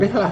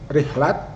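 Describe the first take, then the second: First: The word ends with an h sound. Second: The word ends with a t sound. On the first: The speaker calls it wrong. "bukan rihlah" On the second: The speaker calls it right. "Rihlat bukan rihlah ya"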